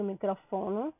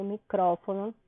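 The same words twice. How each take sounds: First: Microfono stressed on FO, mi-cro-FO-no; soft, quick microfono with the weight on FO; wrong stress. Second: Micrófono stressed on CRÓ, mi-CRÓ-fo-no; correct Spanish stress. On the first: Teacher showing students what not to say, microfono stressed on FO. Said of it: "eu não digo microfono". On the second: Teacher showing students what to say, micrófono stressed on CRÓ. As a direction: move the weight of micrófono back to CRÓ. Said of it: "eu digo micrófono". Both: Shown as a demonstration.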